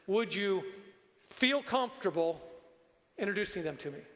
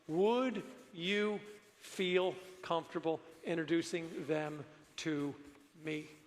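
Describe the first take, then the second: First: The words 'feel comfortable' are strongly emphasized. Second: The words 'feel comfortable' get no special emphasis.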